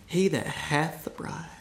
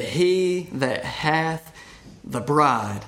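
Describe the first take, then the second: First: "He that hath the bride" said again softer, tenderly; hushed, savouring the phrase; soft repeat. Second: He that hath drawn out very slowly, each word weighted; slow scripture reading. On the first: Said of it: "Don't you love that?". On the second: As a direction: linger on "He that hath" before "the bride". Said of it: "Look how he prefaced verse twenty-nine". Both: Shown as a demonstration.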